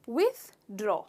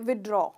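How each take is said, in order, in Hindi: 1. इसे साफ़ 'th' ध्वनि के साथ बोला जाता है। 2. इसे बिना 'th' ध्वनि के बोला जाता है। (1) "इसका करेक्ट प्रोनाउंसिएशन है विथड्रॉ" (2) "इसमें हम थ का साउंड लेना भूल जाते हैं"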